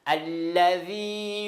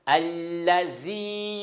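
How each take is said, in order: First: The consonant is a voiced 'th' sound. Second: The consonant is a 'z' sound. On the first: The speaker calls it right. "Le premier, c'est vrai" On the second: The speaker calls it wrong. "Mais allazi, le deuxième"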